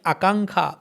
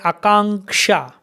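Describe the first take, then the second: First: The ending has a plain kh sound. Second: The ending has a k-sh cluster. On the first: This is how native speakers say it. "native Bengalis pronouncing like Akankha" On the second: This is the form as written. "in written Bengali, you will find like Akanksha"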